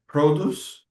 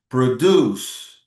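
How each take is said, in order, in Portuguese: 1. A tônica está na primeira sílaba. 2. A tônica está na segunda sílaba. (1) "fruits, vegetables" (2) "to make and create something"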